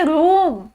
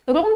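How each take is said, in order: First: रूम with a long drawn "oo"; long OO sound. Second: रूम mispronounced with a short vowel, like "rum"; wrong short vowel. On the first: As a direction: hold the vowel in रूम as "room". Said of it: "double ओ लगाया तो मैंने sound change कर दी". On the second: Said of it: "रूम तो नहीं बोलती". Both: Shown as a demonstration.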